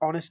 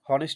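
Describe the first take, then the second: First: The word begins with a vowel sound. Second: The word begins with an h sound. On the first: The speaker calls it right. "এখানে অনেস্ট উচ্চারণ" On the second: The speaker calls it wrong. "এখানে কিন্তু হনেস্ট উচ্চারণ না"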